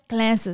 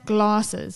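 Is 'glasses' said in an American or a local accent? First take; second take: American; local. First: It is said in an American accent. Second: It is said in a local, non-American accent.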